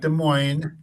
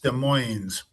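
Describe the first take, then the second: First: The final s sound is silent. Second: The final s sound is pronounced. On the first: The speaker calls it wrong. "It's not Des Moines" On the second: The speaker calls it right. "Gotta put the S on the end"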